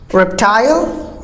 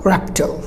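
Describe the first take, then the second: First: Reptile slowly as REP-tile, rising; long I in reptile; British reptile, drawn-out ending; British pronunciation. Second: Reptile cut to REP-tl, softer; American reptile, low falling end; American pronunciation. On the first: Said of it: "British go for the I sound". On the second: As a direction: schwa ending on reptile. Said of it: "Americans just cut it". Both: Shown as a demonstration.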